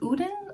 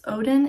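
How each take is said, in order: First: The name is said the Swedish way. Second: The name is said the usual English way.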